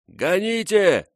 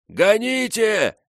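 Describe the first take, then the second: First: High, slow shouted warning; shouting. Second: Higher, slower second shout; shouting even higher. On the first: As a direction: yell it over the roar of ice. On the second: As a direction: push the repeated yell further. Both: A narrator's reading. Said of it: "его крик".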